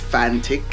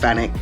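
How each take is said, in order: First: The t sound before the last syllable is pronounced. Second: The t sound before the last syllable is dropped. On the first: The speaker calls it right. "but it's Fantic" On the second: The speaker calls it wrong. "I've been pronouncing it Fanic"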